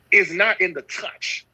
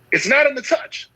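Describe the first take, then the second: First: Slow, weight on "is" in "is not in the touch"; slow and deliberate, hitting "is" first; stress on is. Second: "not" punched high in "It's not in the touch"; pitched-up preacher's emphasis on "not"; stress on not. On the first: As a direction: lean on "is" and draw the line out slowly. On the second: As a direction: hit "not" hard and high. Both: Acted. Repeating a key line for emphasis.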